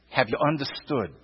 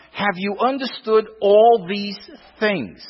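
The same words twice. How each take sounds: First: Soft repeat. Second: Said in the usual way. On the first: Acted. Preacher repeating Jesus' question to the congregation, hushed and low. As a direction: softly repeat the question, dropping much lower and quieter.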